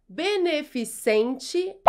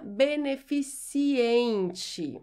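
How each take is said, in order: First: "beneficente" slowly as "be-ne-fi-SEN-te"; pronunciation option. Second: "beneficiente" slowly as "be-ne-fi-si-EN-te"; wrong pronunciation option. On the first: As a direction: end "beneficente" in -SEN-te, no extra i. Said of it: "Como você pronuncia?". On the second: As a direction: add an i before EN in "beneficiente". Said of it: "não beneficiente". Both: Shown as a demonstration.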